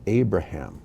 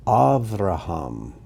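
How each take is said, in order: First: Abraham as AY-bruh-ham; English pronunciation. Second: Avraham slowly as ahv-rah-HAHM; Hebrew pronunciation. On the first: Teacher gives the familiar name after it, English pronunciation. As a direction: say Abraham the everyday English way, stress up front. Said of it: "or as we say". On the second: Teacher reads the name list aloud, Hebrew pronunciation. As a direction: say Avraham with open ah vowels and a v. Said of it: "these are the Hebrew pronunciations". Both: Shown as a demonstration.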